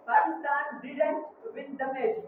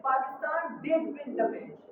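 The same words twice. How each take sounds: First: Said in the usual way. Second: Slow sentence with stress on "did"; emphatic did. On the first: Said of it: "disagree with the previous statement". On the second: Shown as a demonstration. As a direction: insist on the win through "did". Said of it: "empathic do".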